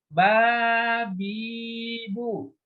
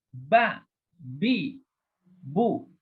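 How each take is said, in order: First: The syllables run together without breaks. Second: Each syllable is said short and separately. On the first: The speaker calls it wrong. "Nggak boleh dibaca kayak gini ya" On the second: The speaker calls it right. "Dibacanya satu-satu. Putus-putus"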